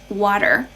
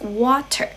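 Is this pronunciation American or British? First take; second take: American; British. First: It is said with an American accent. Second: It is said with a British accent. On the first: "in American English it's water" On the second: "in British English, it's water"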